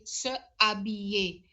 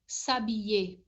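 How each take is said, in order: First: Both vowels are said, with a break between them. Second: The words run together with no vowel between them. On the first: The speaker calls it wrong. "we can't say se habiller. It just doesn't sound right" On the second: The speaker calls it right. "French has to be smooth"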